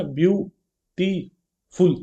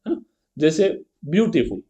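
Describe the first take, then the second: First: ब्यूटीफुल stretched very slowly, syllable by syllable; syllables drawn out. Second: Said in the usual way. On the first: Shown as a demonstration. Teacher counting the syllables of ब्यूटीफुल for the class, very slow. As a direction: draw out ब्यूटीफुल so each syllable can be counted. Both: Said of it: "अब इसमें देखो कितने हैं".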